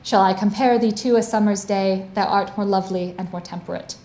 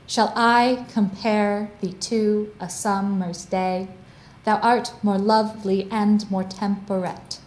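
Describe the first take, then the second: First: The rhythmic beats are only lightly marked. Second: The rhythmic beats are strongly marked.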